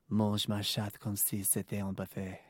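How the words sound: It is read in a sultry, seductive voice.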